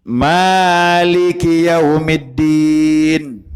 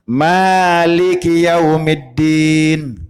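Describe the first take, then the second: No difference in how they are said.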